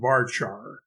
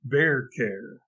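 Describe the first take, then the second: First: The word rhymes with far par. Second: The parts sound like the start of variable and character. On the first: This is how most programmers say it. The speaker calls it wrong. "as if it rhymed with far par" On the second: It follows the words the term comes from. The speaker calls it right. "the V A R part comes from the word variable, and the C H A R part comes from the word character"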